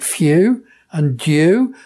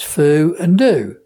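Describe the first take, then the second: First: A y sound comes before the oo vowel. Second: The oo vowel comes with no y sound. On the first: This is the standard English way. "there I'm speaking standard English" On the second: This is the local dialect way. "to me it's foo and do"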